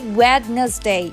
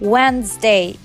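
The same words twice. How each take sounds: First: It is said with a D sound. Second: It is said with no D sound. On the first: The speaker calls it wrong. "We don't say Wednesday" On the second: The speaker calls it right. "We say Wednesday"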